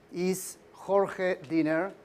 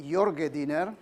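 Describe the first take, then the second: First: Jorge said the Spanish way, "HOR-heh", with a throaty h; Spanish pronunciation. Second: Jorge said the Macedonian way, "YOR-geh", with a j sound and a hard g; Macedonian pronunciation. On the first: Shown as a demonstration. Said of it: "My mother tongue is Spanish". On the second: Retold or imitated. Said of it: "Macedonia will call me".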